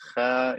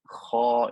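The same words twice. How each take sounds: First: The syllable sounds light, with a thin, bright vowel. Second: The syllable sounds heavy, with a full, deep vowel. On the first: "Kha is skinny" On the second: "kha is fat"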